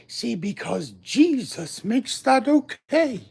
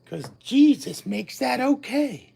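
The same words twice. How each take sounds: First: Slower preacher. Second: Mild preacher. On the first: Slower mock-preacher repeat. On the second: Preacher-style sing-song. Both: Retold or imitated.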